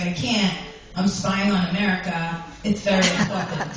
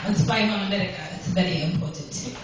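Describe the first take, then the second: First: Said in the usual way. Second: Lightly put-on Russian accent; a hint of a Russian husband's accent. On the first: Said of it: "I forgot the accent". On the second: Shown as a demonstration. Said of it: "I forgot the accent. I gotta do that".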